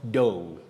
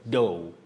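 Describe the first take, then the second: First: The word ends in an open vowel sound. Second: The same.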